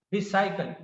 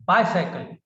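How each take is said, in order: First: Bicycle with BI said like "bee"; mispronounced first vowel. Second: Bicycle with BI said like "bye", punched; corrected first vowel. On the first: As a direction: say bicycle as "bee-sigh-kul". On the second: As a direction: say bicycle as "BYE-sigh-kul". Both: Shown as a demonstration.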